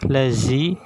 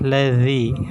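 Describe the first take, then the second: First: The middle consonant is a buzzing z. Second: The middle consonant is a th made between the teeth. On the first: The speaker calls it wrong. "Jadi bukan lazi" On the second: The speaker calls it right. "Ujung lidah sedikit dikeluarkan"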